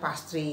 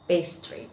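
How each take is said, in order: First: The word is read with Indonesian-style sounds. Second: The word is read with English-style sounds. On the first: The speaker calls it wrong. "kalau orang Indonesia suka bacanya pastry" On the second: The speaker calls it right. "harusnya yang betul adalah pastry"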